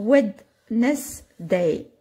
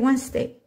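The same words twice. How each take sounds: First: Every written letter is sounded out. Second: It is said in the normal reduced way. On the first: It is a trick for remembering the spelling. "Vous allez l'apprendre Wednesday" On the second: It is how the word is really said in English. "En anglais, c'est Wednesday"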